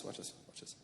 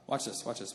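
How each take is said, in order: First: Breathy whisper, conspiratorial. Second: Said in the usual way. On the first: Shown as a demonstration. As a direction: drop to a secret whisper.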